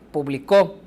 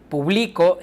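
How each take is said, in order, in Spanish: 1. El acento está en la última sílaba. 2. El acento está en la sílaba del medio. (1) "en la tercera está al final" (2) "En la segunda está en medio"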